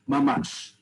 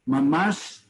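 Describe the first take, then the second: The two takes are said the same way.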